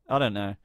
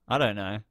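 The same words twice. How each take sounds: The two takes are said the same way.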